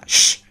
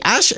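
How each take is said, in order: First: The word is a bare 'sh' hush sound. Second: The word starts with an 'a' vowel. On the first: The speaker calls it right. "Por la pronunciación española" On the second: The speaker calls it wrong. "él dice Ash con una A"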